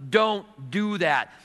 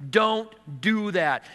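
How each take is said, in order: First: Very slow, heavy warning; slow firm warning. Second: Slow, deliberate warning, each word spaced; slow firm warning. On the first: God stopping the sinner again, slow and heavy. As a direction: lean on each word, slowly. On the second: God warning the sinner at the roadblock, slow and firm. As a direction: draw out the warning slowly. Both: Acted.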